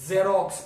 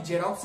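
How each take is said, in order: First: जेरोक्स said "zerox", with a buzzing Z; correct Z reading. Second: जेरोक्स said "jerox", with a J; wrong J reading. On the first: Teacher giving the reading, जेरोक्स with a Z. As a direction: start जेरोक्स on a firm Z. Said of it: "जेरोक्स पढ़ता है". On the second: Teacher rejecting the common error, जेरोक्स with a J. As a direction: start जेरोक्स on a hard J. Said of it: "जेरोक्स नहीं". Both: Shown as a demonstration.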